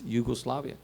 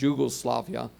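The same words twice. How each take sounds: First: The word begins with a Y sound. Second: The word begins with a J sound. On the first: The speaker calls it right. "because it's Yugoslavia" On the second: The speaker calls it wrong. "if you pronounce it Yugoslavia, people look at you"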